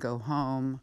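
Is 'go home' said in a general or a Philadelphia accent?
general. The O vowels sound plain and general American. "instead of saying go home"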